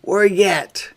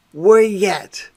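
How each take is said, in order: Both takes have the same delivery.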